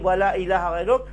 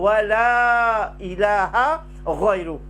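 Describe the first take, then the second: First: The vowel in 'wala' is short. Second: The vowel in 'wala' is long. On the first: The speaker calls it wrong. "si nous mal prononçons" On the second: The speaker calls it right. "Nous devons dire"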